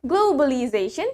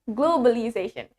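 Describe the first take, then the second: First: GLOBALIZATION with a rounded "glow" first syllable; deliberate British globalization, "glow-ba-li-zation"; British W after O. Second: GLOBALIZATION with a short plain O, no W glide; American globalization with an unglided first O. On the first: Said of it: "In British". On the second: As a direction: say GLOBALIZATION the American way, "glo-ba-li-zation". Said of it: "In America". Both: Shown as a demonstration.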